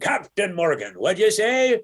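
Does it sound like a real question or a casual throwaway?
question. It is said as a real, asking question.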